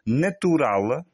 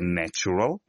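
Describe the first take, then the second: First: It is said with Portuguese pronunciation. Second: It is said with English pronunciation.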